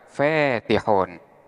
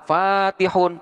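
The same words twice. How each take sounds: First: The long vowel leans toward an e sound. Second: The long vowel is an open a sound.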